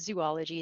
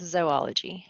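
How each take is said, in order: First: The first syllable is said like 'zoo'. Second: The first syllable is said like 'zoh'. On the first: The speaker calls it wrong. "we call zoo" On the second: The speaker calls it right. "it's actually pronounced as zo"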